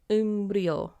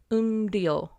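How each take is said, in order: No difference in how they are said.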